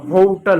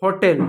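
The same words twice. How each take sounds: First: होटल as "HOH-tl", weak last vowel; English pronunciation. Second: होटल with a clear "tel" ending; wrong pronunciation. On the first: Teacher shows how English speakers say it, long O. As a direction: stretch the O in होटल, swallow the ending. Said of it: "अंग्रेजी में होटल होता है". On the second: Teacher mimics the Indian habit, clear "tel" ending. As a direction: end होटल on a full E, "ho-tel". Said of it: "गलत है". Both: Shown as a demonstration.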